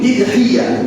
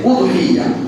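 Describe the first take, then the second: First: The word begins with an 'i' vowel. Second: The word begins with an 'u' vowel. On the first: "আলিফের নিচে জের দিয়ে" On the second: "আলিফের পেশ দিয়ে"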